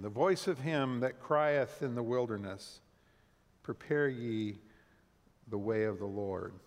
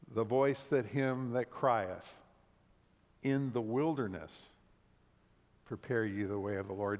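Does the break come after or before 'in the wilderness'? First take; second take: after; before. First: The break falls after 'in the wilderness'. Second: The break falls before 'in the wilderness'. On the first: A voice calls out from the wilderness. "Hear it again" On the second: The voice commands preparing a way in the wilderness. "some sources would have had us read it this way"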